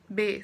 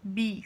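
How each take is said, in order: First: The letter name ends in an 'eh/ay' vowel. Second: The letter name ends in an 'ee' vowel. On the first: This is the Portuguese way of naming the letter. "ele sempre termina com o som de E" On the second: This is the English way of naming the letter. "Em inglês, elas vão terminar com som de I"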